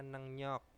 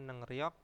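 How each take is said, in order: First: The second syllable starts with an N sound. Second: The second syllable starts with an R sound. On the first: "bacanya nengnyok" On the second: "tulisannya nengryok"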